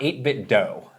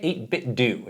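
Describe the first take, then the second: First: The last syllable ends in an 'oh' vowel. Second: The last syllable ends in an 'oo' vowel. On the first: The speaker calls it wrong. "It's not eight bit dough" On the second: The speaker calls it right. "you say it eight bit do"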